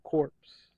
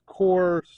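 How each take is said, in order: First: The word sounds like 'corpse', ending in p-s. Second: The word sounds like 'core', with no final consonants. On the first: The speaker calls it wrong. "not corpse" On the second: The speaker calls it right. "It's corps"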